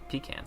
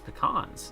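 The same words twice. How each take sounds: First: It is said the Southern way. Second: It is said the non-Southern way. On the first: The speaker calls it wrong. "it's not pecans" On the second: The speaker calls it right. "It's it's pecans"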